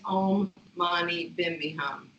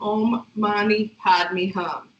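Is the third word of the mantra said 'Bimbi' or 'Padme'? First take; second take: Bimbi; Padme. First: The third word is said as 'Bimbi'. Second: The third word is said as written, 'Padme'. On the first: "the Tibetan variation of it is always pronounced as Om Mani Bimbi Hum" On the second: "even though it's spelled Om Mani Padme Hum"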